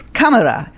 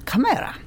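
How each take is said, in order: First: Camera said with an exaggerated put-on accent; host clowning an accent on the word Camera; mock foreign accent. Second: Said in the usual way. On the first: Shown as a demonstration. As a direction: put on a playful accent for Camera, stressing the first syllable. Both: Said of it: "whatever accent is this".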